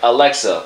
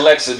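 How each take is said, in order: First: It is said slowly with every sound clearly enunciated. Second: It is said loosely in a casual street accent. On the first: The speaker calls it right. "You have to be like" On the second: The speaker calls it wrong. "can't have like a Detroit or New York accent"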